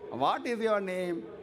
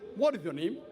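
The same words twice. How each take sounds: First: It is said in a South Indian accent. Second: It is said in an English accent.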